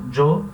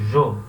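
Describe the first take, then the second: First: The word starts with a strong j sound. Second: The word starts with a very weak j sound. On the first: This is common in Mexico. "Eu sempre falo jo" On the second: This is a less common regional variant. "Esse J é um J bem fraquinho"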